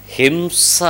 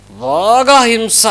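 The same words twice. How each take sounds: First: హింస said softly, with a slight rise at the end; quiet mention. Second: బాగా stretched long and high before హింస; drawn-out emphasis. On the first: Preacher naming the lesser degree of violence, హింస said softly. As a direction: say హింస quietly, left hanging. Names violence, then greater violence. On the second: Preacher stressing how severe violence gets, బాగా drawn out high. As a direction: draw out బాగా slowly at a raised pitch. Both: Shown as a demonstration.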